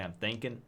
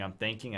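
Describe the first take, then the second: First: The final g sound is dropped. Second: The final g sound is pronounced.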